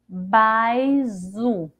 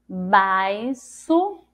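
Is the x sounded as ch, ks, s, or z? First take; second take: z; s. First: The x is sounded as a z. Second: The x is sounded as an s. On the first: "Ficaria assim se fosse com som dizer" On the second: "Vamos tentar com som de si"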